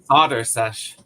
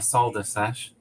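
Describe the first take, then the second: First: Solder is pronounced the American way. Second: Solder is pronounced the non-American way. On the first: The speaker calls it right. "American accent real quick" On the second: The speaker calls it wrong. "not a"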